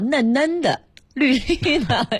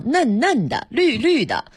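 First: The repeated syllables are said with a tone change. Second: The repeated syllables keep their plain tones. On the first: The speaker calls it right. "最美的应该叫" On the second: The speaker calls it wrong. "我们当时背的时候叫"

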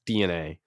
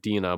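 First: The name is said as letters, D-N-A. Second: The name is said as one word, Dina. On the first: The speaker calls it right. "but it's actually pronounced DNA" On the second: The speaker calls it wrong. "a lot of people have been pronouncing it Dina"

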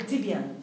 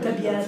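First: The first syllable has the vowel i. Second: The first syllable has the vowel a. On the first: The speaker calls it right. "تقول تبيان" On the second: The speaker calls it wrong. "لا تقول تبيان"

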